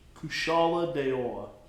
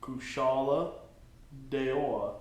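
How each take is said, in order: First: It is said at normal speed. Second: It is said slowly.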